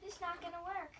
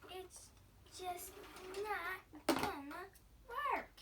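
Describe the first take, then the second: First: Said in the usual way. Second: "It's just not gonna work" drawn out, higher, louder on "not" and "work"; slow emphatic repeat. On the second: Shown as a demonstration. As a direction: stretch "not gonna work" slowly with rising force.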